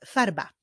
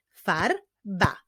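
First: Said in the usual way. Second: "Farba" broken into Far, ba; two separate beats on "Farba"; syllable by syllable. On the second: Shown as a demonstration. Teacher clapping words ending in ba, "Farba" split into syllables. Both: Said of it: "Wyklaszczmy sylaby w tych wyrazach".

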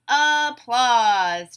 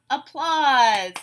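First: "Applause" stretched in two, a-plause; loud, drawn-out beats on "Applause"; syllable by syllable. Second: Said in the usual way. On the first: Shown as a demonstration. Teacher breaking a word into syllables, beat by beat. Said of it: "we'll break it into syllables". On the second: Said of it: "I'll say a word".

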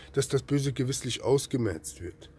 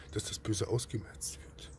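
First: Said in the usual way. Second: Hushed, breathless whisper of the verse. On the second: Shown as a demonstration. Preacher whispers the verse to his listeners, then repeats it aloud. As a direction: let the verse drop to a bare whisper.

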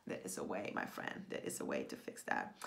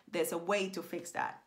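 First: Very low, creaky hush; hushed reassurance. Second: Said in the usual way. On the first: Real, not acted. Coach to fellow writer about fixing that, hushed reassurance. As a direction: drop right down, confiding softly.

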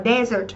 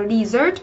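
First: "desert" said as DEH-zert; pronounced DEH-zert. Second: "desert" said as dee-ZERT; pronounced dee-ZERT. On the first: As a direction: say "desert" as the sandy wasteland, opening on "deh". (đọc "desert" thành "đe-dớt", như sa mạc) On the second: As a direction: say "desert" like dessert, opening on "dee". (đọc "desert" thành "đi-dớt", như món tráng miệng) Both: Shown as a demonstration. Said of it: "nhìn cái phần phát âm của nó".

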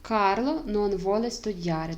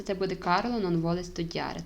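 First: Slow, careful Italian read-out; slow model answer. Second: Said in the usual way. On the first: Shown as a demonstration. Teacher reading the Italian answer to her students, slowly. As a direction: spell the answer out slowly for learners. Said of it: "Тепер перевіряємо". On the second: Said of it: "Карло не хоче вчитися".

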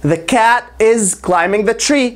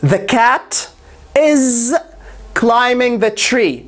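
First: Said in the usual way. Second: The cat, pause, is, pause, climbing the tree; broken into chunks. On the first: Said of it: "full repeat". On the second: Shown as a demonstration. Teacher builds the sentence piece by piece. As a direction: pause between each part. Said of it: "step by step model".

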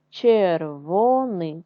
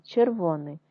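First: Червоний drawn out slowly syllable by syllable; slow syllable reading. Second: Said in the usual way. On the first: Shown as a demonstration. Teacher showing first graders how to read червоний, slow. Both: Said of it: "читаємо з вами слова".

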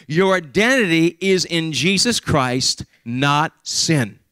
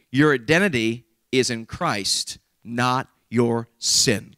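First: Slow, stressing identity and not; repeated emphasis. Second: Slow and weighty, stressing identity and not; slow emphatic statement. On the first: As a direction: say it again with weight. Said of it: "Let me say it again". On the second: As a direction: lay it down slowly, hitting identity and not. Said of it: "Let me repeat that". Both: Shown as a demonstration.

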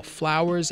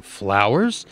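First: Said in the usual way. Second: "Flowers?" swooping up at the end; puzzled question. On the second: Acted. Newsreader doubts his own report, puzzled rising "Flowers?". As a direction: query "Flowers?" with a sharp final rise.

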